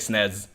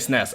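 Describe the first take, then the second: First: The word ends with a buzzing Z sound. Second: The word ends with a hissing S sound.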